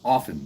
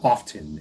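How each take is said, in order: First: The T sound in the middle is silent. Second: The T sound in the middle is pronounced. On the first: The speaker calls it right. "the T's silent" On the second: The speaker calls it wrong. "idiots that say the word often"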